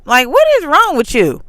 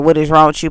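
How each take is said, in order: First: Higher and louder, fed up; heated rhetorical scold; exasperated demand. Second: Said in the usual way. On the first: Retold or imitated. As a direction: demand it, out of patience. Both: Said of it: "I didn't say, like".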